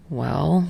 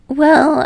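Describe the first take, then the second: First: Low, soft rising well; dry amused well. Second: High, loud falling well; drawn-out bashful well; sheepish. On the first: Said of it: "Tsukishima says amusedly". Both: A narrator's reading.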